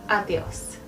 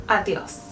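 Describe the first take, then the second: The two takes are said the same way.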